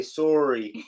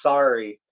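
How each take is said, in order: First: "sorry" with a round "oh": SORE-ee; rounded, rising "sorry", first vowel as in "sore"; Canadian sorry. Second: "sorry" with an open "ah": SAR-ee; open-vowelled "sorry", falling and firm; American sorry. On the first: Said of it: "you guys say". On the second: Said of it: "In America, it's". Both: Shown as a demonstration.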